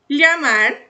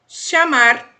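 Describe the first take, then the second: First: The first sound is a palatal 'ly' sound. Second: The first sound is a hushing 'sh' sound. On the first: "o L L tem som de L H" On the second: "Segunda maneira, som de X"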